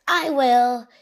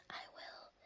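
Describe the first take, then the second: First: Said in the usual way. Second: Barely audible whispered "I will"; hushed, voiceless whisper. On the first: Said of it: "Pig Will says". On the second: A narrator's reading. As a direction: whisper it as an obedient child. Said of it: "Pig Will whispers".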